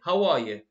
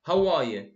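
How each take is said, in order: The two takes are said the same way.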